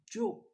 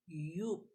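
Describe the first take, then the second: First: The name begins with a J sound. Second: The name begins with a Y sound. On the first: "the name of the perfume is Joe" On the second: "in German they pronounce the J in Y"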